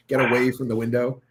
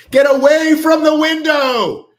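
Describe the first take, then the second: First: Said in the usual way. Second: High, drawn-out panicked yell; hammed-up shriek of alarm; mock horror-movie scream. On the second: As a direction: scream the warning like a slasher film. Mock horror-film warning, repeated shouted.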